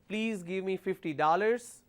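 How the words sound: It is said in an American accent. "But American way of saying it is"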